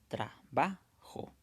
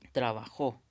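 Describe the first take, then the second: First: The stress is on the middle syllable. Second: The stress is on the last syllable. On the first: "aquí claramente está en la sílaba ba" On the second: "sería correcto decir con jo sería la sílaba tónica"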